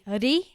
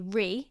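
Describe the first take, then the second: First: The r is made with a rolled tongue. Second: The r is a plain English r sound. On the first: "they say ri, they kind of roll their tongue" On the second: "where we would say ri"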